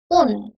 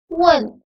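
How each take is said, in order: First: It is a plain u followed by n. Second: It begins with w and has an e before n. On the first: The speaker calls it wrong. "dibaca bukan un" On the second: The speaker calls it right. "tetapi dibaca wen"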